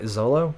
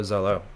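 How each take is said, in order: First: "Zolo?" with an L, not R, as a rising question; Nami's "Zolo?" said with an L, questioning. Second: "Zolo." with an L, dropping at the end; repeating "Zolo." flat with an L, mildly mocking; Zolo flatly. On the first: Retold or imitated. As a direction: ask "Zolo?" with an L in a puzzled rise. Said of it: "Nami's just like". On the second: Shown as a demonstration. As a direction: say "Zolo." with an L, plain statement. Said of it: "Which, Zoro, Zolo".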